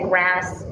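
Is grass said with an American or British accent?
American. It is said with an American accent. The listeners recognize the word.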